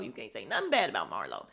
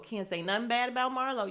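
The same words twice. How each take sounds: First: Much lower, fast, mock-stern warning; mock Sonya. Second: Said in the usual way. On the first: Mimicking Sonya defending Marlo, low mock warning. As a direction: drop deep and warn, lightly mocking. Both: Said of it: "all team Marlo".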